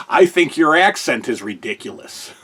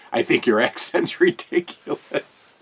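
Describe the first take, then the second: First: Said in the usual way. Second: Line broken by a laugh; quoting with a chuckle mid-line; amused retelling, laughing on accent; laughing through it. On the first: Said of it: "So then Jesse goes". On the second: Retold or imitated. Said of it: "Jesse was holding back a smile".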